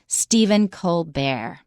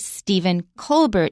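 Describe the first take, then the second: First: The name is said in a fancy way. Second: The name is said in a plain way. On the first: The name was changed to sound fancier. "he changed the pronunciation, not the spelling" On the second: This is how the name was said at first. "Originally Stephen Colbert"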